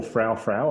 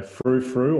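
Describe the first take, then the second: First: "[name]" said to rhyme with "cow cow"; pronounced "frow frow". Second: "[name]" said to rhyme with "who who"; pronounced "froo froo". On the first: Guest unsure of a band's name, "[name]" said as "frow frow". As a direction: say "[name]" with an ow sound, slowly. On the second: Guest unsure of a band's name, "[name]" said as "froo froo". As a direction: say "[name]" with an oo sound, slowly. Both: Shown as a demonstration. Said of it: "I've never known if it's".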